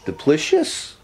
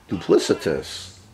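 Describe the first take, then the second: First: The word has three syllables, with no t sound. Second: The word has four syllables, with a t sound. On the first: The speaker calls it wrong. "not duplicious" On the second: The speaker calls it right. "the pronunciation of the word, I believe, is duplicitous"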